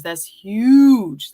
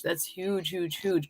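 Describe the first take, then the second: First: Loud emphatic "huge"; emphatic praise. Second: Soft fading "huge, huge"; quiet echo. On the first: Host praising a viewer's comment, loud and emphatic. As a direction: punch "huge" hard with a falling end. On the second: Host echoing her praise of a comment, soft and fading. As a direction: let the word fall away to almost nothing. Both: Real, not acted.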